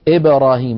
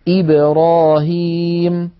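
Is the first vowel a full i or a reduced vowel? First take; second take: reduced; full i. First: The first vowel is reduced and not a clear i. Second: The first vowel is a full, clear i. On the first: The speaker calls it wrong. "ولا نقول إبراهيم مثلا. إيه هذا، هذه ليست كسرة" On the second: The speaker calls it right. "لابد من خفض الفك تماما عند النطق بالهمزة"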